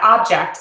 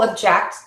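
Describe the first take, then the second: First: The stress is on the first syllable. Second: The stress is on the second syllable. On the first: It is a noun meaning a thing. "in nouns, typically the first syllable is stressed" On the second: It is a verb meaning to protest. "in verbs, typically the second syllable is stressed"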